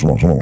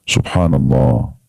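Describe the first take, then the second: First: It is said fast and hurried. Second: It is said slowly and calmly.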